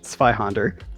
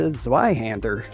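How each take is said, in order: First: The name has a German pronunciation, like 'tsvai'. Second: The name has an English pronunciation, like 'zway'. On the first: It was mistaken for a different game. "I took German in high school, and so uh, I was pronouncing it Zweihander" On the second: People could tell which game it was. "we quickly had to change that to Zweihander"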